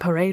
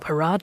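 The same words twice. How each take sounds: First: It is pronounced the plain English way. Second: It is pronounced the French way.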